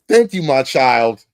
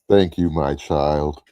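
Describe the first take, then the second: First: It is said in his normal voice. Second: It is said in a put-on God voice.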